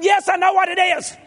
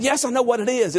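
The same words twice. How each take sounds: First: Very high, strained shouted comeback; hammed-up exasperated shout back at the wife; mock harsh retort. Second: Raised pitch without the shout; less harsh retort. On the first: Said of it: "said it in a little harsher tone". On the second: Retold or imitated. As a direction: imitate an insistent reply, toned down from yelling. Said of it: "I didn't say it in a harsher tone".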